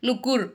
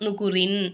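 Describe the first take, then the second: First: The word ends short on a final consonant. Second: The word ends with an added nasal syllable. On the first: The reader stops at this word. "சுக்குனா மாத்தி நுக்கூர் அப்படின்னு நம்ம நிப்பாட்டணும்" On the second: The reader continues on without stopping. "சேர்த்து ஓதிக்கிட்டு இருக்கோம்னா"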